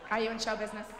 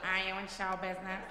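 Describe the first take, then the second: First: The line is spoken quickly. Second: The line is spoken more slowly. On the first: "That's a little fast" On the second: "Better the first time"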